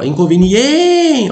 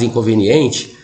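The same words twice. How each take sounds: First: "inconveniente" hailed like a name, stretched on EN; calling the word. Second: Said in the usual way. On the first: Shown as a demonstration. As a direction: call out "inconveniente", holding the stressed EN long and high. (chamando "inconveniente", com o EN esticado e agudo) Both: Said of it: "Você chama a palavra".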